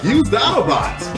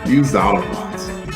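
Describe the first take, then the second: First: It is said excitedly, like an exclamation. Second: It is said flatly, without exclamation.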